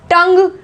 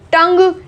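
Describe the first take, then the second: Both takes have the same delivery.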